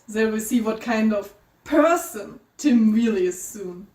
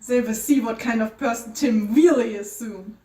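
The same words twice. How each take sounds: First: The word person is emphasized, as if italicized. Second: The word person is said plainly, without emphasis.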